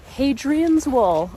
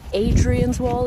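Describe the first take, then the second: First: The opening H sound is pronounced. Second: The opening H sound is dropped.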